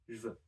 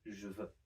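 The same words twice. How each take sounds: First: The vowel of je is dropped entirely. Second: The vowel of je is fully pronounced. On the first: "normally French people will pronounce it je veux ... which halves the number of syllables" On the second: "instead of"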